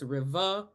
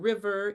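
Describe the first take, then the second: First: The final r sound is dropped. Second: The final r sound is pronounced. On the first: "all of the final R sounds will be dropped" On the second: "Instead of river"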